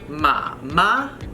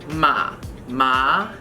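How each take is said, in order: First: The second syllable has a high level tone. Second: The second syllable has a rising tone. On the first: "third and first" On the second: "and then a second tone"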